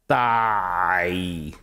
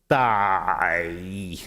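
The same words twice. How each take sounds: No difference in how they are said.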